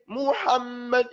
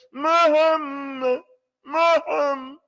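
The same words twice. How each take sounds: First: "Muhammad" with each vowel clearly formed; correct full vowels. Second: "Muhammad" high and loud, vowels squashed into a hum; imitated wrong reading. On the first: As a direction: open the mouth on every vowel of "Muhammad". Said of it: "Doesn't say". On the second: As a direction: mimic a reader droning "Muhammad" through closed lips. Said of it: "That's how he says it". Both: Shown as a demonstration.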